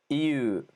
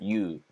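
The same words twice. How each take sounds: First: The word is said slowly and carefully. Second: The word is said quickly.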